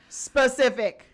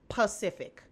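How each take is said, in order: First: The word begins with an s sound. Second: The word begins with a p sound. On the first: The speaker calls it right. "who can pronounce the word specific" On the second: The speaker calls it wrong. "It's not Pacific"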